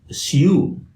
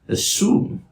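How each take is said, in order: First: A y sound comes before the oo vowel. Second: The oo vowel follows with no y sound. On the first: "a standard British English speaker would say" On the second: "standard American English speaker would say"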